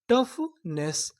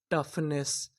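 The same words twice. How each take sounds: First: toughness drawn out very slowly; slow sounding out. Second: Said in the usual way. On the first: Shown as a demonstration. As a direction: stretch toughness syllable by syllable. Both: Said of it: "तो meaning क्या बनी?".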